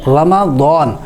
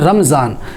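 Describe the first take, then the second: First: The middle has an 'a' vowel before 'd'. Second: The middle is a 'z' with no vowel before it. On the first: The speaker calls it right. "रा के ऊपर भी ज़बर, मीम के ऊपर भी ज़बर" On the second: The speaker calls it wrong. "ये रमज़ान लफ्ज़ नहीं होता है"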